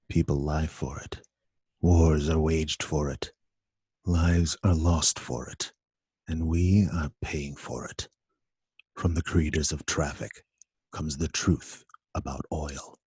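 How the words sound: It is read flat, like a horror movie.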